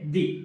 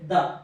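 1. ఈ పదం పొడవైన 'ee' ధ్వనితో ముగుస్తుంది. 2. ఈ పదం చిన్న 'uh' ధ్వనితో ముగుస్తుంది. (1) "TH pronounced as a ది" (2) "TH pronounced as a ద"

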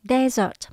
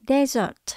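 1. Trọng âm nằm ở âm thứ nhất. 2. Trọng âm nằm ở âm thứ nhất.

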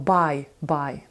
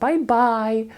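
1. Наголос на першому bye. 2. Наголос на другому bye. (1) "Ми не кажемо «бай-бай»" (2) "наголос падає на другому «бай»"

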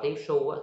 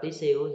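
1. Phụ âm ở giữa là âm sh nặng. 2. Phụ âm ở giữa là âm s nhẹ. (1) "Nếu bạn đọc là tí su thì nó sờ nặng" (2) "Nếu bạn đọc tí siêu thì nó sờ nhẹ"

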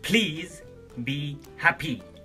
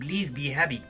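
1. الكلمة الأولى تبدأ بصوت P مع نفخة هواء. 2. الكلمة الأولى تبدأ بصوت B مجهور.

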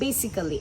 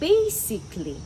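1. 'ly'-র আগে অতিরিক্ত 'al' সিলেবলটি উচ্চারণ করা হয়। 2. 'ly'-র আগে 'al' সিলেবলটি বাদ যায়। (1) "এটা খুবই কমন একটা ভুল।" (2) "এখানে এটাকে আমরা বাদ দিয়ে দিব"

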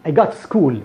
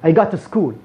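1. الصوت في 'go' مفتوح، والفم واسع. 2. الصوت في 'go' مفتوح، والفم واسع.

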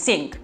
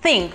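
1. Începe cu alt sunet decât th. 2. Începe cu sunetul th din thank. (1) "sau think" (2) "Think on thank you, deci think"

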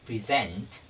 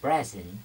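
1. Trọng âm nằm ở âm tiết thứ hai. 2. Trọng âm nằm ở âm tiết thứ nhất.

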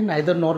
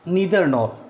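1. 'Neither' की शुरुआत 'nye' ध्वनि से होती है। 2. 'Neither' की शुरुआत 'nee' ध्वनि से होती है।

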